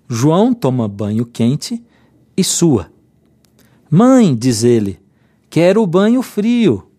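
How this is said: There is a pause right after 'sua'.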